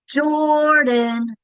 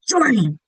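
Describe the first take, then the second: First: The name is called out with stretched sounds. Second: The name is yelled in an angry voice. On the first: "You could also do call the dog" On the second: "You could do it in an angry voice"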